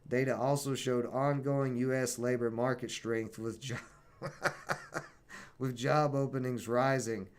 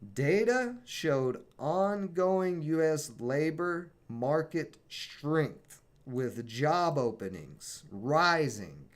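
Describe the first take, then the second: First: It is read at a normal speed. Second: It is read very slowly.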